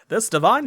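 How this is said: It is said in a put-on character voice. The speaker calls it right. "in the Arcanum voice"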